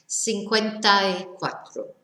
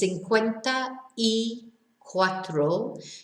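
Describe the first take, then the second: First: The words are said quickly and blended together. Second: The words are said separately and carefully.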